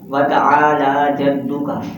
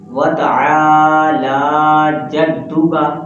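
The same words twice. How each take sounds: First: The vowel after the ain is kept short. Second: The vowel after the ain is drawn out. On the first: The speaker calls it wrong. "ना आइन को खींचते हैं" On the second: The speaker calls it right. "अलिफ मद्दा और खड़ी हरकत है"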